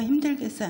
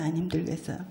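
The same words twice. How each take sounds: First: 힘들겠어요 asked higher, falling at the end; rhetorical question. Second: 안 힘들겠어요 dropped lower and softer, stress on 힘들겠어요; answering question. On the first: Preacher asking the congregation, 힘들겠어요 set up high. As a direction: pose 힘들겠어요 as a teasing question. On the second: Preacher turning her own question, 안 힘들겠어요 said low. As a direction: undercut it with 안 힘들겠어요, quietly. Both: Shown as a demonstration.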